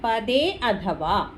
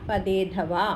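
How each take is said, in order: First: The two words are said separately. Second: The two words are run together as one. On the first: The words are split apart for analysis. "പദച്ഛേദം നോക്കുമ്പോൾ" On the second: This is how the verse is read aloud. "ഉച്ചരണം വേറെ ആയിട്ട് എടുക്കണ്ട, പദേധവ എന്ന് വായിച്ചാൽ മതി"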